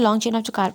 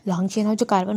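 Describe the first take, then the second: First: The phrase is spoken at a quicker pace. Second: The phrase is spoken at a slower pace.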